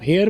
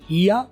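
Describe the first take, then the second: First: It is said like 'hair' with an r ending. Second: It is said as 'hee-ah', ending in a schwa. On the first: The speaker calls it wrong. "जो आप हेयर बोलते हो वो गलत है" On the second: The speaker calls it right. "आप इसे दो तरीके से बोलते हो"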